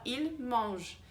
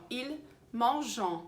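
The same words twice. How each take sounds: First: Il mange said slowly, ending cleanly on the J sound; il mange with no vowel after the final consonant; correct silent ending. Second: Ils mangent with a slow, sounded vowel after the J; common learner mistake. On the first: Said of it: "a gente não fala esse E N T". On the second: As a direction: drag out the ending of ils mangent as if ENT were spoken. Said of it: "um erro muito comum". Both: Shown as a demonstration.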